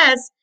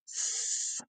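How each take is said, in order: First: Said in the usual way. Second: "S" as a long, soft hiss; S sound. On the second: Shown as a demonstration. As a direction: hold "S" as a voiceless sss, not ess. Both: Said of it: "what's the S sound".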